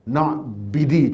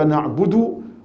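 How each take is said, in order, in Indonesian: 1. Dua vokal terakhir itu bunyi 'i'. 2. Dua vokal terakhir itu bunyi 'u'.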